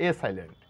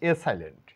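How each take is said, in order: No difference in how they are said.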